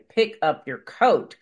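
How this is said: The request is said in a sharp, irritated tone. The speaker is annoyed. "I might be sounding a little more irritated"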